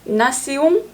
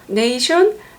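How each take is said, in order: First: It sounds like 'nah-syon', ending nasal. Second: It sounds like 'nay-shun', ending in 'shun'. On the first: "프랑스어" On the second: "영어"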